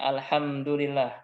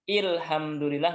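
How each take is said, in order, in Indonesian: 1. Kata ini diawali dengan vokal a. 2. Kata ini diawali dengan vokal i. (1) "Harus dengan a, alhamdu" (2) "Nggak boleh dibaca dengan ilhamdulillah, nggak boleh"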